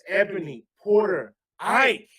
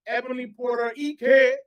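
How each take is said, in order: First: The name is said with a general American pronunciation. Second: The name is said with a Nigerian pronunciation.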